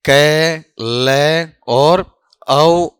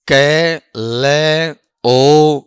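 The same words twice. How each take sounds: First: कै ले और औ spelled slowly with the final sound drawn out as au; slow phonetic breakdown showing the second variant; syllable by syllable. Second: कै ले ओ spelled out slowly as separate sounds kai, le, o; slow phonetic breakdown for students; syllable by syllable. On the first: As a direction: say कै ले और औ as slow separate syllables ending on au. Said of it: "और ये क्या है". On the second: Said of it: "इसका जो उच्चारण बताओ". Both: Shown as a demonstration.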